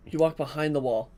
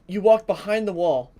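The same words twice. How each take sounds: First: Said in the usual way. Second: "walk" hit high and loud; stress on walk. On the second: Shown as a demonstration. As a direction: punch "walk behind the wall" louder.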